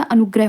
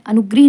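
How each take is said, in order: First: अनुग्रह ending in greh, not gree; correct pronunciation. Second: अनुग्रह ending in a long ee, anugree; wrong form shown. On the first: Teacher giving the correct form, अनुग्रह ending in greh. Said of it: "अनुग्रह होता है". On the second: Teacher citing the mistake, अनुग्रह ending in ee. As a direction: say अनुग्रह as anu-gree. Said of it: "अनुग्रह नहीं होता". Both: Shown as a demonstration.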